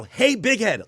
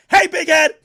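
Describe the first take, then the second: First: Said in the usual way. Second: Much higher, much louder mock shout. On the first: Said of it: "like he's shouting". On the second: Meek's text read out as an all-caps shout. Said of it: "In all caps, like he's shouting".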